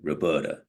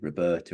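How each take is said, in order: First: The name is said in a New York accent. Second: The name is said in an English accent. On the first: The speaker calls it right. "It has to be like Roberta in a New York accent" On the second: The speaker calls it wrong. "you can't say Roberta in an English accent"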